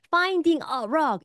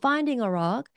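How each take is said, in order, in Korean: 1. 관사는 분명하고 강하게 발음됩니다. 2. 관사는 약하고 거의 들리지 않습니다. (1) "이렇게 발음하지 않아도" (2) "이렇게 발음해도"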